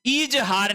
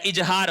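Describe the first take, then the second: First: इजहार with a long opening ee; wrong pronunciation. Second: इजहार with short opening i; correct pronunciation. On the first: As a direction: say इजहार as "eej-haar", pitched higher. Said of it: "नहीं होता है". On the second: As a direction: say इजहार as "ij-haar". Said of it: "होता है". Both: Shown as a demonstration.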